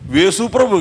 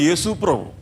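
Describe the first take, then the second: First: The name begins with a v sound. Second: The name begins with a y sound. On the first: The speaker calls it wrong. "వేసుప్రభు కాదు, ... ఏ అనలేక వే అంటా ఉంటాం" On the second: The speaker calls it right.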